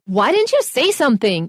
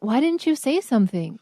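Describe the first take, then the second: First: It is said in an angry, accusing tone. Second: It is said in a gentle, mild tone. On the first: The listener is being criticized. "You can say this in anger" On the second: The speaker is just asking. "Or you can be like"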